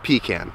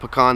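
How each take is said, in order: First: The first syllable has a full, clear vowel. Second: The first syllable is a reduced 'puh' sound. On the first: This is the speaker's own way of saying it. "I call it a pecan" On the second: This is the way other people say it. "they would have spelled it P U H C A N"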